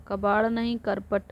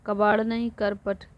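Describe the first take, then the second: No difference in how they are said.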